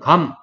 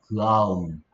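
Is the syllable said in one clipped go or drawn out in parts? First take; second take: one go; drawn out. First: The syllable comes out in one clipped go. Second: The syllable is drawn out into separate parts. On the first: This is how Korean speakers say it. "한국 사람은 감 이러면서 한 번만에 소리를 내" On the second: This is how English speakers say it. "영어 쓰는 사람들은 ... 그아음을 빨리 하는 거야"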